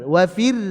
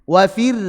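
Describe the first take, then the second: Both takes have the same delivery.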